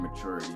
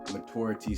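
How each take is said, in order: First: It is said the everyday, casual way. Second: It is said the refined, elegant-sounding way. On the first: It is the ordinary conversational form. "Maturity is just basically in common conversation" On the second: The speaker wants to sound smarter. "maturity sounds more elegant"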